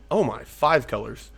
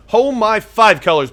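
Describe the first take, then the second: First: Low, soft mutter under the breath; muttered first take. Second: Raised, higher exclaim of disbelief; louder second take. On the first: Gamer muttering at the opponent's five-colour deck. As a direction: say it quietly to yourself first. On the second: Gamer exclaiming at the opponent's five-colour deck. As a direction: call it out, surprised. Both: Real, not acted.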